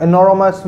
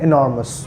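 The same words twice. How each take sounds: First: "Enormous" as e-no-ro-mas, extra vowel; wrong pronunciation. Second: "enormous" as i-NOR-mus, three syllables; correct pronunciation. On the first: Teacher showing what it can't be, "Enormous" as e-no-ro-mas. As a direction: say "Enormous" with a full, spelt-out middle. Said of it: "Enormous भी नहीं हो सकता". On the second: Teacher modelling the sound, "enormous" said i-NOR-mus. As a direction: say "enormous" with a weak last vowel. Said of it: "तो इसको हम sound करेंगे". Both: Shown as a demonstration.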